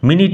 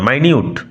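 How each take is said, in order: First: The first syllable is said as 'min'. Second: The first syllable is said as 'my'. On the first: The speaker calls it wrong. "মিনিট নয়" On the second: The speaker calls it right. "উচ্চারণ লক্ষ্য করো"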